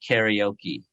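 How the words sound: It is pronounced the American English way. This is how Americans now say it. "Americans now say karaoke"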